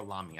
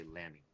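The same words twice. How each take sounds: First: Lamy with an open "ah"; Lamy rhyming with mommy; other pronunciation. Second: Lamy with the short "a" of lamb; Lamy rhyming with clammy; American-accent pronunciation. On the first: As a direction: say Lamy as LAH-mee. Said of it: "I've heard it both ways". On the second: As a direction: say Lamy as LAM-ee. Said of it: "'cause of our American accent". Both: Shown as a demonstration.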